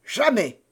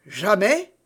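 First: "Jamais" as a high, falling exclamation; defiant refusal. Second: "Jamais" echoed with a rising questioning end; challenging question. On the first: Buckingham refusing to sign, "Jamais" as a falling refusal. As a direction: refuse outright, "Jamais" dropping firmly at the end. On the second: Felton challenging the duke's refusal, "Jamais" as rising question. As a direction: throw "Jamais" back as a question, pitch climbing. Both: A narrator's reading.

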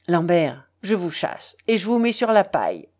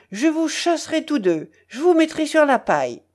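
First: Matter-of-fact pronouncement, quickening at the end; decreeing. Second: High, heated threat; angry howl. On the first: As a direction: hand down the sentence without shrillness. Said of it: "décréta Andreïev". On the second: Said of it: "hurla Lambert". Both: A narrator's reading.

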